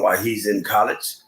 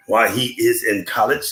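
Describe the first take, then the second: First: Said in the usual way. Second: "is" said in full and stressed. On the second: Real, not acted. Speaker restates a hope for a relative, stressing "is". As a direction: lean on the word "is", uncontracted. Repeats with "is" uncontracted.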